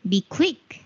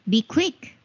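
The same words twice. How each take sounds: The two takes are said the same way.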